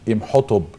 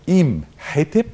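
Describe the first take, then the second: First: The first vowel is short and runs straight on. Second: The first vowel is long, with a break after it. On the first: The speaker calls it wrong. "مش إمحتب" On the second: The speaker calls it right. "إيم حتب مش إمحتب"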